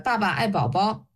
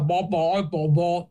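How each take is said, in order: First: It is said with normal tongue placement. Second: It is said with the tongue pulled back.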